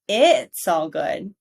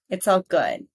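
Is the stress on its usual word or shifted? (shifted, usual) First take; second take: shifted; usual. First: The stress is moved to another word. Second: The stress falls on the usual key word. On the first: The speaker calls it wrong. "I'm changing the emphasis and it doesn't sound as natural" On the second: The speaker calls it right. "This is where we heard the stress"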